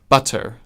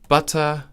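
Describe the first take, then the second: First: The word ends with an audible R sound. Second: The word ends without an R sound. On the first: "if the next word begins with a vowel, then they'll pronounce it as butter" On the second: "Normally they would pronounce it as butter"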